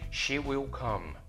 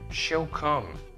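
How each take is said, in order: First: She and will are said as two full words. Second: She and will merge into one short syllable.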